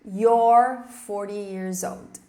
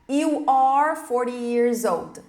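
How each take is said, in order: First: You are is shortened into one syllable. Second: You are is said as two full words. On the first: "E depois contraída" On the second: "da forma completa"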